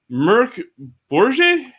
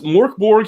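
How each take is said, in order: First: The name is said with an attempted Swedish pronunciation. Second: The name is said with an American pronunciation. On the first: "over over in Sweden" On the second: "here in the States"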